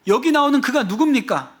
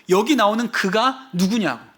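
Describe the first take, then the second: First: Raised questioning pitch on 나오는; asking question. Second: Said in the usual way. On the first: Shown as a demonstration. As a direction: lift "나오는" higher as a real question.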